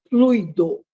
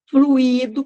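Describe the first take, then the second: First: The i is unstressed. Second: The i is stressed. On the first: It is the noun for a fluid substance. The speaker calls it right. "é essa a pronúncia" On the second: It is the past participle of the verb to flow. The speaker calls it wrong. "com acento no i, como muita gente fala"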